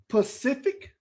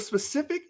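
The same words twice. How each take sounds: First: Pacific, beginning on P, ending in a questioning rise; wrong pronunciation. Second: Specific, opening on a clear SP; correct pronunciation. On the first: Retold or imitated. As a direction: say Pacific without the opening S. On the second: Shown as a demonstration. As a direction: say specific with the S in front. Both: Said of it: "instead of specific".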